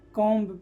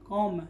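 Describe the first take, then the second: First: A b sound is pronounced after the m. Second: The b is silent, no b sound heard. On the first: The speaker calls it wrong. "ना कि कॉम पढ़ते हैं" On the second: The speaker calls it right. "बी यहाँ पर क्या है, silent है"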